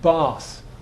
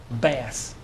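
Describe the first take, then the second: First: It is said in a Southern English accent. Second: It is said in an American accent. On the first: "Here, south of England"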